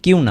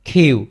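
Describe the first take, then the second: First: The first consonant is unaspirated, with no puff. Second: The first consonant is aspirated, with a puff. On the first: The speaker calls it wrong. "কিউ না" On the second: The speaker calls it right.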